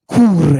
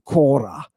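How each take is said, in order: First: The first vowel becomes an oo sound. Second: The first vowel is a short o. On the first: This is the Ionian form. "Cure in the Ionian. Look at how much they changed the vowel" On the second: This is the Doric form. "I pronounce it like the Dorians do"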